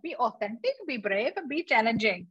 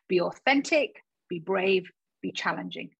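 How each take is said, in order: First: It is said in a put-on Asian accent. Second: It is said in the speaker's natural accent.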